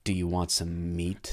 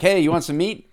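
First: Low, slow and hushed; creepy offer. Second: Upbeat, higher-pitched friendly offer; casual offer. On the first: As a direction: make the offer sound creepy, slow and soft. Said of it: "Those are t-, same words". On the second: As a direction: toss it out like an easy invitation. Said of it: "totally different when you say, like". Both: Shown as a demonstration.

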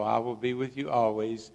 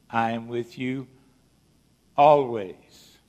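First: Said in the usual way. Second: "always" set apart by a pause, punched loud; stress on always. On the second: Shown as a demonstration. Preacher quoting Jesus's promise to the congregation, loud stress on "always". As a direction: hit "always" hard after a pause. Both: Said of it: "I'm gonna emphasize that word".

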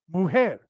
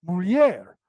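First: "mujer" as moo-HEH with a throaty h; Spanish mujer. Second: "mulher" as mool-YEHR, lh gliding into y; Portuguese mulher. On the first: Drilling the contrast for viewers, Spanish pronunciation. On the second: Drilling the contrast for viewers, Portuguese pronunciation. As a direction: repeat "mulher" with the ly glide. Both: Shown as a demonstration. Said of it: "there's a subtle difference".

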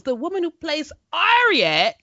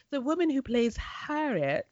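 First: "Harriet" said as "Arriet", no H; showy H-less "Harriet"; dropped H in Harriet. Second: "Harriet" with a clear opening H, softer; softly corrected "Harriet", H intact; H sounded in Harriet. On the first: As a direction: drop the opening H of "Harriet", British style. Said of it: "see how I did that?". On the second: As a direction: pronounce the H at the start of "Harriet". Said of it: "which should be". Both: Shown as a demonstration.

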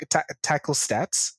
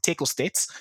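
First: Said in the usual way. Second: Put-on tackle said as tekkle in a Kiwi accent; New Zealand accent. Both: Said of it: "Nedi said that in a New Zealand accent".

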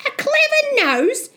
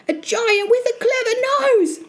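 First: Very high questioning rise; incredulous echo. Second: Put-on high-pitched boy's alarmed report; gasping fright. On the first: Acted. Mother doubting her son's story, high incredulous question. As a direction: throw it back as a high, disbelieving question. Mother echoes Jack in disbelief. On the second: Frightened Jack describing the giant, high alarmed statement. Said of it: "he gasped".

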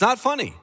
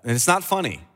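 First: Not funny said higher in playful protest; higher mock-protesting not funny. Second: Said in the usual way. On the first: Shown as a demonstration. Preacher joking with the church that it's not funny.

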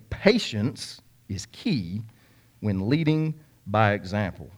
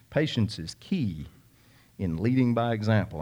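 First: "Patience is key" drawn out very slowly; emphatic repeat. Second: Said in the usual way. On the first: Real, not acted. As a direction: stretch "Patience" and "key", letting each word sink in. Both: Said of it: "I'm gonna say that again".

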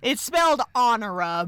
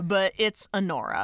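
First: "Honora" said AH-nuh-ruh, as it looks written; "spelled" stressed, then "Honora" read as AH-nuh-ruh; spelled-out pronunciation. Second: "Honora" said uh-NOR-uh, stress on NOR, falling; correct pronunciation. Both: Shown as a demonstration.

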